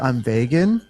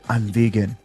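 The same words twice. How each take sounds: First: The first syllable sounds like 'veg'. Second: The first syllable sounds like 'vee'. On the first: It sounds much nicer. The speaker calls it right. "it sounds way nicer" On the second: It sounds off-putting. The speaker calls it wrong. "I'm like, whoa, whoa, okay"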